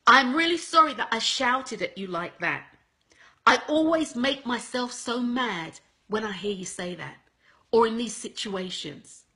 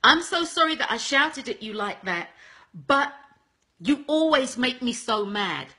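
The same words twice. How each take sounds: First: Right apology demo. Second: Wrong apology demo. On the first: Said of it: "second apology, the way that it should be". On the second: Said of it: "first apology is this". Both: Shown as a demonstration.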